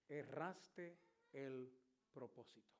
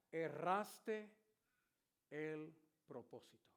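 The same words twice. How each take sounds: First: Very slow, much softer echo; preacher repeating God's words to the congregation; hushed repeat. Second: A hint of a solemn divine voice; God answering the praying preacher. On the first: Retold or imitated. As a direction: savor each word, fading. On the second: Voice of God speaking to him.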